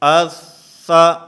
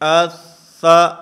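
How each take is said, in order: No difference in how they are said.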